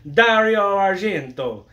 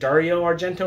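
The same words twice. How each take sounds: First: The name is said with an exaggerated Italian flair. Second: The name is said in a plain American accent. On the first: "I'm going to take a liberty here" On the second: "is it Dario Argento"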